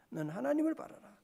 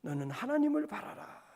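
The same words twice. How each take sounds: First: 하나님을 stressed, ending in a rise; 하나님을 stressed, rising at the end. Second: 하나님을 leaned on, falling end; 하나님을 stressed with a falling close. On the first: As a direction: lift the close after 하나님을. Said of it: "repeated exhortation". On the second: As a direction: press 하나님을 down firmly. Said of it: "quoted exhortation repeated". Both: Shown as a demonstration.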